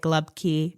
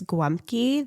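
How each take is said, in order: First: It is two syllables with an l and b. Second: It has a w-like sound and an m. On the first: "Pittsburgh will say" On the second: "that's Polish"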